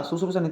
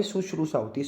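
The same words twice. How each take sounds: First: शुश्रूषा with s sounds, "susrusa"; wrong pronunciation. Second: शुश्रूषा with "sh" inside; correct pronunciation. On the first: Teacher shows students the error, mispronounced. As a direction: flatten sh to s in शुश्रूषा. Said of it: "शुश्रूषा नहीं तो भाई". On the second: Teacher corrects it for students, careful pronunciation. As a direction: say शुश्रूषा as "sush-ru-sha". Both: Shown as a demonstration.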